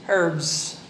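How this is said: The word begins with an audible h sound. "Yung European English, linalagyan yung H"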